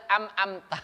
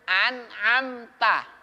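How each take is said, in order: First: The first syllable ends with an m sound. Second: The first syllable ends with an n sound. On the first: The speaker calls it wrong. "harusnya kan baca an'amta, dia am-amta" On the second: The speaker calls it right. "Yang betul tuh an dulu baru am"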